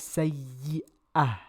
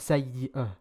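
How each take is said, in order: First: The vowel is an open 'ah' sound. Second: The vowel is a reduced 'uh' sound. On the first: The speaker calls it right. "he said it as" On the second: The speaker calls it wrong.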